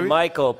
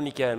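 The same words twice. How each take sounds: First: The name is pronounced the English way. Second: The name is pronounced the French way. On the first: The speaker is American. The speaker calls it right. "C'est Michael" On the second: The speaker is French-speaking. The speaker calls it wrong. "pas Michael"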